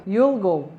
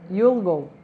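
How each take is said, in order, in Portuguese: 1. 'Will' é reduzido e unido ao pronome. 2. 'Will' é reduzido e unido ao pronome.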